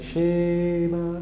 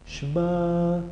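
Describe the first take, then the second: First: The first vowel is drawn out long. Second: The first vowel is very short. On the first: The speaker calls it wrong. "No se quede en la E. Shema, no" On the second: The speaker calls it right. "Es una E corta"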